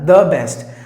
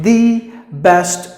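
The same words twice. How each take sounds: First: The word 'the' is said plainly, without emphasis. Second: The word 'the' is said with extra emphasis. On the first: It simply follows the normal rule. "according to this rule, the word best is the next word after the word the" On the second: It highlights one particular thing as special. "You're giving more stress on that on the point"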